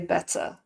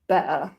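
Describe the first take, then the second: First: The middle t is clearly pronounced. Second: The middle t sound is dropped. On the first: "personally I say better" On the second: "you will also hear better"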